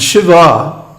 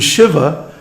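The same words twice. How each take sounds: First: The final vowel is long. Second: The final vowel is short. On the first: It names his female counterpart. "his female counterpart" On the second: It names the male Lord. "male Lord Shiva"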